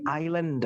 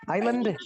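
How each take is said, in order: First: "island" said eye-land, the s left silent; correct reading. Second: "Island" said wrongly as eye-lan-deh, with the d sounded; mock the learner, "Island" with a d on the end; deliberately wrong: Island ending in a d sound; wrong spelled-out reading. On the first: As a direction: model "island" the right way. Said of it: "ada L E N D". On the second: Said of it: "D-nya ditulis berarti dibaca island gitu". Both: Shown as a demonstration.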